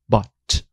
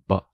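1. O som do t final é claramente pronunciado. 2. O som do t final é totalmente omitido. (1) "ela não vai falar but" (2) "O T está lá cumprindo só obrigações com a imagem e mais nada"

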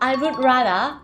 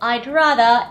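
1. 'would' ถูกพูดเต็มคำเป็นคำแยกต่างหาก 2. 'would' ถูกลดเหลือเสียง 'd' หลังคำว่า 'I'

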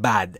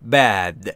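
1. این مصوت a کوتاه و صاف فارسی است. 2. این مصوت کشیده است و بین a و e است. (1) "ما تو فارسی دقیقا با فتحه با ا میگیم بد" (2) "این صدا بین ا و ا شواست، یعنی میشه bad"

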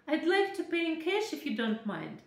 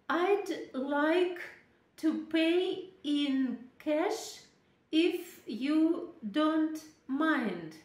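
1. Слова текут плавно, с ударениями, паузами и меняющейся высотой голоса. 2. Каждое слово отделено от других, все идут ровной чередой. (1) "должно быть логическое ударение, должны быть паузы. Интонация должна то повышаться, то понижаться" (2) "Мы иногда произносим по одному слову, как будто рубим"

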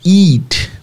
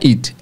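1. A vogal é um som de ee longo e esticado. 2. A vogal é um som de i curto. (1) "estiquem o I" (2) "não é eat"

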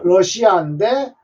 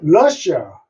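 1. 한국어 외래어처럼 음절마다 끊어 읽습니다. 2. 영어로 읽고, 첫 음절을 강하게 읽습니다. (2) "영어로는 러시아"

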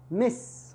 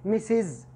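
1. الكلمة تنتهي بصوت s واحد بسيط. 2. الكلمة تنتهي بصوت زائد مضاف. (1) "لا مس، خلاص هو كأنه حرف واحد" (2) "لا تقول مسز"

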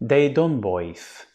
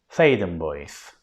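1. Yazılışına göre telaffuz edilir. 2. Yerel halkın söylediği gibi telaffuz edilir. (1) "mantıken şöyle tavsiye etmek çok normal" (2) "Ama öyle telaffuz edilmiyormuş"

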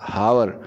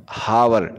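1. इस शब्द की शुरुआत में h की आवाज़ साफ़ सुनाई देती है। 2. इस शब्द की शुरुआत में h की आवाज़ साफ़ सुनाई देती है।

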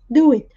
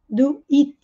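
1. A ênfase cai na palavra do. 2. A ênfase cai na palavra it. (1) "botando a ênfase no do, que é o verbo" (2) "Cuidado para não dizer do it. Botando mais ênfase no it do que no do"

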